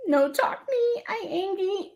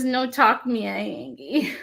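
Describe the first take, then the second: First: Put-on much higher squeaky baby talk for a grumpy kitty; cute baby voice. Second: Reading the grumpy kitty quote with a hint of baby talk; barely voiced, mostly her own voice; light baby voice. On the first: Repeating the kitty sticker for fans in a high baby voice. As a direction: pitch it way up like a pouty little kitten. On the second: Reading the sticker to viewers, a light hint of baby voice. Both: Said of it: "animals talking in baby voices".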